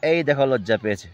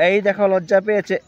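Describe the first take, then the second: First: Said in the usual way. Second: Excited showing. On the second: Real, not acted. Showing plant shrinking.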